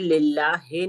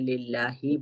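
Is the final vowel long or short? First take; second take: short; long. First: The final vowel is a short i. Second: The final vowel is a long ee. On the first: The speaker calls it wrong. "नहीं बोलेंगे" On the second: The speaker calls it right. "जेर की अदायगी में ई बोलेंगे"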